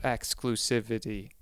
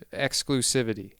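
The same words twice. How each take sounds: First: Exclusivity drawn out slowly, syllable by syllable; exclusivity said slowly and clumsily. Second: Said in the usual way. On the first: Shown as a demonstration. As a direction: stretch exclusivity out like you're slow. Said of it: "I said that word like I'm slow". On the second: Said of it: "I got a good flow".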